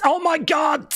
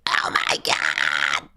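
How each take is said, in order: First: High-pitched squealed exclamation; mock excitement. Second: Very low, slow growled exclamation; put-on monster voice. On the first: Streamer reacting to the countdown, high excited squeal. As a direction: squeal it in hammed-up thrill. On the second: Streamer hamming up the countdown, deep drawn-out voice. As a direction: drag it out deep and hammed-up.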